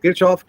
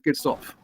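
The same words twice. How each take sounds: First: The name is pronounced the English way. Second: The name is pronounced the German way. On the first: The speaker calls it wrong. "So people say Kirchhoff" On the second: The speaker calls it right. "The German pronunciation is Kirchhoff"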